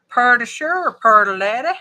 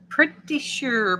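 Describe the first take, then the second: First: Loud Far East Texas twang, "purdy"; Far East Texas accent. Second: Said in the usual way. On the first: Shown as a demonstration. Crafter showing how Far East Texas talks, broad accent. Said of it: "That's how they talk in Far East Texas".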